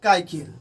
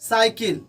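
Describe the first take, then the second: First: The word begins with a k sound. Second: The word begins with an s sound. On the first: The speaker calls it wrong. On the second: The speaker calls it right.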